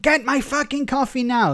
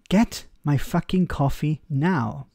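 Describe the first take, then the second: First: It is said in an aggressive, harsh tone. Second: It is said in a polite, gentle tone.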